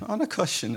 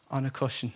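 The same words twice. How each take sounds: First: Higher, amused, softly laughing; laughing repeat. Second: Said in the usual way. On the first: Shown as a demonstration. Preacher repeating the cushion detail to the congregation, amused laugh.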